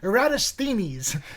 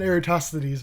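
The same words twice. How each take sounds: First: The name is pronounced in a Greek-sounding way. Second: The name is pronounced in an English-sounding way.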